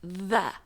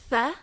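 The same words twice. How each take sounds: First: 'the' with a voiced th. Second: 'tha' with a voiceless th; tha as in three. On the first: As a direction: say 'the' like the start of 'that'. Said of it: "the is more like that". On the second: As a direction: say 'tha' like the start of 'three'. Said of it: "tha is like three". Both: Shown as a demonstration.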